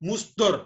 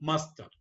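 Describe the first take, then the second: First: The first vowel is a 'u' sound. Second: The first vowel is an 'a' sound. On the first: The speaker calls it wrong. "முஸ்தர் இல்ல" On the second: The speaker calls it right.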